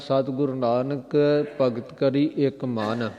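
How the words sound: The pause comes right after the word 'man'.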